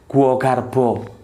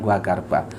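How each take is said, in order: First: It is said with a Javanese pronunciation. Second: It is said with a standard Indonesian pronunciation. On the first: "Kalau orang Jawa bilang tuh gua garbo" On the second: "kalau aku Indonesia kan gua garba"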